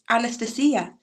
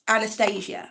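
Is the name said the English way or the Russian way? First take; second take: Russian; English. First: The name is pronounced the Russian way. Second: The name is pronounced the English way. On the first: "The Russian pronunciation is" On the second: "how we pronounce her name, like over here, Disney film"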